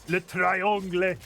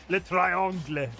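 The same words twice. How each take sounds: Both takes have the same delivery.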